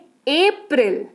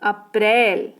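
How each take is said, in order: First: It is pronounced the English way. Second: It is pronounced the Hindi way. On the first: "अंग्रेजी में" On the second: "Hindi में"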